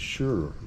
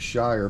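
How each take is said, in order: First: It sounds like sure, a reduced vowel. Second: It rhymes with fire, a full vowel. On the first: This is how it is said in proper English. The speaker calls it right. "I think it's sure" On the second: This is how Americans would say it. The speaker calls it wrong. "in America we would pronounce it Shire"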